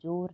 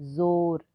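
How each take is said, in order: First: The word begins with a j sound. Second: The word begins with a z sound. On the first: The speaker calls it wrong. "इसको आप ज नहीं पढ़ेंगे, जोर नहीं बोलेंगे" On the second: The speaker calls it right. "ज के नीचे ये नुक्ता है, इसलिए इसे पढ़ेंगे, इसका उच्चारण इस प्रकार से करेंगे"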